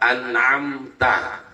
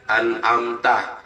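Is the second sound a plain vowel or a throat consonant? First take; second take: throat consonant; plain vowel. First: The second sound is a deep throat consonant. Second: Both sounds are plain vowels, no throat sound. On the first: The speaker calls it right. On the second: The speaker calls it wrong. "dibaca alif semua"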